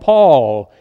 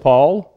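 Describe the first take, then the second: First: The vowel is long and drawn out. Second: The vowel is short and plain. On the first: "down in Texas, they call him Paul, and they drag it out" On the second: "they just say Paul"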